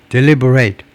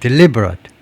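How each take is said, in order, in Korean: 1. 마지막 음절은 완전한 'ate' 모음입니다. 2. 마지막 음절은 약한 'it' 모음입니다. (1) "deliberate 동사" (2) "형용사는 deliberate"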